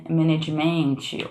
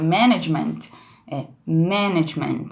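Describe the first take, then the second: First: "management" drawn out as "meh-neh-djee-MENT-ee"; slow "management", full vowels, weight moved off MAN; wrong stress. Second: MAN in "management" stressed, rest reduced; stress on first syllable. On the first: Teacher showing students the mistake, "management" stressed late. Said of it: "E não ma". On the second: Teacher showing correct word stress, "management" stressed on MAN. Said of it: "uma super diferença a sílaba tônica". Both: Shown as a demonstration.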